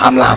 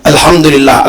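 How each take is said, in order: First: It is said very fast and slurred. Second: It is said slowly and clearly. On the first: The speaker is rushing to finish the count. The speaker calls it wrong. "Mau tiga puluh tiga tapi kencang kali" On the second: The speaker says it with care. The speaker calls it right. "Nggak usah banyak-banyak. ... Jelas"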